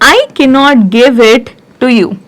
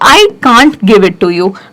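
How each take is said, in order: First: 'Cannot' is said in full as two words. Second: 'Cannot' is shortened to the single word 'can't'.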